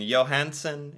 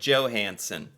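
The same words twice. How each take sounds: First: The name is said with the Norwegian pronunciation. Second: The name is said with the usual American pronunciation. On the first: The speaker calls it right. "and Johansson instead of" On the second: The speaker calls it wrong. "instead of Johansson"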